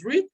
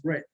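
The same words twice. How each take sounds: First: "read" said like "reed", long ee; present tense read. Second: "read" said like "red", short e; past tense read. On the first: Teacher to Spanish-speaking students, "read" as "reed". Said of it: "solo cambia la pronunciación". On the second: Teacher contrasting tenses for students, "read" as "red". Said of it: "cuando queremos decir en pasado decimos". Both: Shown as a demonstration.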